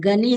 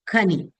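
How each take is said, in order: First: The word begins with a voiced G sound. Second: The word begins with an aspirated Kh sound. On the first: This is the later everyday form of the word. "Gani has come" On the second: This is the original form of the word. "but actually Khani"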